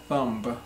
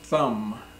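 First: The B sound is pronounced at the end. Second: The B sound is silent at the end. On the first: The speaker calls it wrong. "It's not thumb" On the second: The speaker calls it right. "but thumb, the B is silent"

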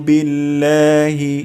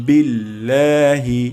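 No difference in how they are said.

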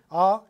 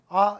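First: The vowel comes from deep in the throat. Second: The vowel comes from the front of the mouth. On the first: "영어의 모음은 목청 깊숙이서 나오는" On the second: "우리는 그냥 아, 에, 이, 오, 우라고 표현하지만"

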